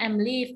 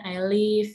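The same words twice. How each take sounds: First: "I'm live" with an M after the I; wrong form I'm live. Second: "I live" with no M, drawn out; correct form I live. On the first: Teacher quoting a student's slip, wrong form "I'm live". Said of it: "nggak boleh". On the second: Teacher correcting a student, clear model "I live". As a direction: say "I live" cleanly, no M after I. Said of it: "harusnya bilangnya". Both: Shown as a demonstration.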